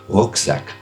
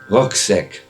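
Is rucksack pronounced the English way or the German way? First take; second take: German; English. First: It is pronounced with a German sound. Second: It is pronounced with an English sound.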